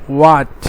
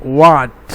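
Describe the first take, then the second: The two takes are said the same way.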